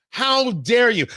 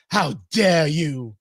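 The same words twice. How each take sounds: First: Said in the usual way. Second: Slow, drawn-out mock of Greta's scolding; Greta Thunberg voice. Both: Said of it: "You gotta say it in Greta Thunberg voice".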